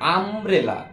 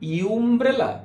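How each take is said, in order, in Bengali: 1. শব্দটি সাধারণ 'uh' স্বরবর্ণ দিয়ে শুরু হয়। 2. শব্দটি 'you' ধ্বনি দিয়ে শুরু হয়। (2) "ইউমব্রেলা না"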